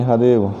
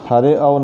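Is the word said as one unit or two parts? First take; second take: one unit; two parts. First: It is joined, with no separate 'a' sound. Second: It is split, with a separate 'a' sound. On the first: The speaker calls it right. "इसका उच्चारण नहीं होता" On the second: The speaker calls it wrong. "नहीं"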